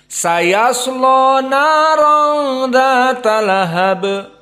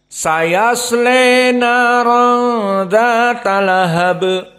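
First: The L is heavy and the vowel is dark. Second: The vowel after the L is bent toward 'e'. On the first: "yasla juga dibaca lam at-taghlidz" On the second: "semuanya membaca dengan Al-Imalah Al-Kubra"

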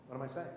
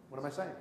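No difference in how they are said.

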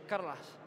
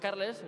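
First: The last vowel sounds like an a. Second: The last vowel is a clear e. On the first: "vosotros decís Carlas... como si fuera una A" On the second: "Yo digo Carles"

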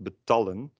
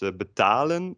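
First: The vowel before the l is short. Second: The vowel before the l is long. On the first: The speaker calls it wrong. "and not betallen, which would be with two l's" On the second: The speaker calls it right. "It's betalen"

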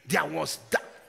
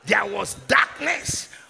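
First: The phrase is said at normal loudness. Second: The phrase is shouted more loudly. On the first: "Somebody say that with me" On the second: "Shouted louder"

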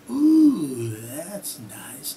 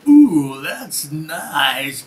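First: The voice is calm and dropping in pitch. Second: The voice is lively and rising in energy. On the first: The listener is being led into a relaxed feeling. "I drop my intonation, my inflection goes another way" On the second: The listener is being brought up to alertness. "Using a voice like that, not in a clinic, you can actually guide them into more alertness and bring it up"

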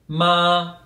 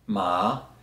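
First: The pitch stays high and level. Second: The pitch rises from middle to high. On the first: It means mother. "so a very high pitch" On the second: It means sesame. "If I use a rising tone"

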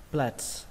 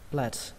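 Both takes have the same delivery.

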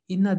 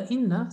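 First: The final vowel is short. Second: The final vowel is drawn out long. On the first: Certainly. "İnna dedik muhakkak, e, şüphesiz" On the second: Certainly we. "sadece burada bir elif de var ilaveten"

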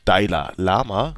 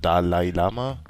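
First: The first word is said as 'Daila'. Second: The first word is said as 'Dalai'. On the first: The speaker calls it wrong. "so wie ich, Daila Lama" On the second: The speaker calls it right. "obwohl er Dalai Lama"

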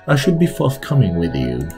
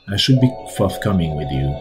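First: It is said in a posh accent. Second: It is said in the reader's plain voice.

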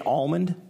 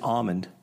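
First: The L sound is pronounced in the word. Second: The L sound is silent in the word.

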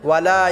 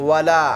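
No difference in how they are said.

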